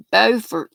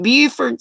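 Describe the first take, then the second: First: Beaufort said BOH-fert, the North Carolina way. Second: Beaufort said BYOO-fert, the South Carolina way. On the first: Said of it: "North Carolina". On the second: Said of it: "South Carolina". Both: Shown as a demonstration.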